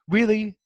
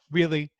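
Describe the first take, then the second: First: Higher and louder, disbelieving; really can't believe it; Really? thrown up high in mock outrage; incredulous. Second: Said in the usual way. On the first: Real, not acted. Exasperated reaction to Bart's line.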